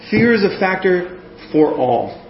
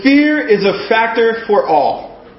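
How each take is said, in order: First: Said in the usual way. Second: "Fear is a Factor for All" said slowly and higher; slow announced title. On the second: Shown as a demonstration. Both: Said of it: "title of my first point".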